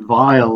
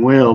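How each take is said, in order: First: The word begins with a v sound. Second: The word begins with a w sound. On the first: This is the original pronunciation. The speaker calls it right. "but it's actually [name], like [name]" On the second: This is how it is said in the UK. The speaker calls it wrong. "in the UK, we always say Fenton wheel"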